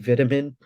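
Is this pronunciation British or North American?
British. It is said with a British pronunciation. "I say vitamin"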